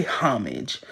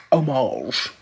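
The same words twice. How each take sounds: First: Homage said HOM-ij with an h; other pronunciation. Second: Homage said oh-MAHZH, no h, French-style; own pronunciation. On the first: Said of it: "Some people say homage". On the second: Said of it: "I say homage". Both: Shown as a demonstration.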